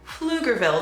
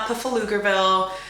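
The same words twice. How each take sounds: First: The word begins without a P sound. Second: The word begins with an audible P sound. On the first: The speaker calls it right. "The P is quiet" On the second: The speaker calls it wrong. "It's not Pflugerville"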